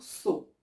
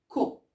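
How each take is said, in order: First: The syllable begins with an S sound. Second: The syllable begins with a K sound. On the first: The speaker calls it wrong. "on ne doit pas dire so. Non, c'est faux" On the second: The speaker calls it right. "On va dire co"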